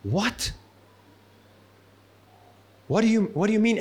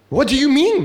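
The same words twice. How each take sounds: First: Baffled. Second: Higher, louder outburst of disbelief; startled exclamation. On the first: Retold or imitated. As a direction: mutter it, lost and confused. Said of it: "his face probably was going". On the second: Acted. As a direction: blurt it out in shock. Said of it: "exclaimed Nicodemus".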